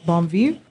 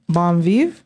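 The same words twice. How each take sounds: The two takes are said the same way.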